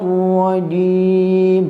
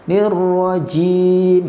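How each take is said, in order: First: The j sound is plain, without a hiss. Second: The j sound comes out with a hiss. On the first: The speaker calls it right. "tidak boleh keluar desisnya atau hamznya" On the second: The speaker calls it wrong. "bukan nirrajim"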